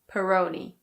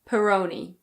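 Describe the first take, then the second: First: It is said in an American English accent. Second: It is said in an American English accent.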